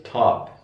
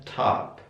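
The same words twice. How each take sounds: First: British 'top' with rounded short o; British pronunciation. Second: American 'top' with open ah, tahp; American pronunciation. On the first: Teacher contrasts accents for students, British pronunciation. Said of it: "Kalau British". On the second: Teacher contrasts accents for students, American pronunciation. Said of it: "American top". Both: Shown as a demonstration.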